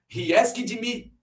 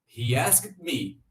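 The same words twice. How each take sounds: First: The ending is an extra syllable, 'id'. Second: The ending is a voiceless T sound. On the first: The speaker calls it wrong. "Vamos tentar o som de id. ... Meio forçado" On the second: The speaker calls it right. "Vamos tentar com T de tatu. ... Encaixa melhor"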